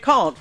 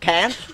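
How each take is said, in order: First: The vowel is a long, broad 'ah' sound. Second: The vowel is a short, flat 'a' sound. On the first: The speaker calls it right. "I say can't" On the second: The speaker calls it wrong. "not can't"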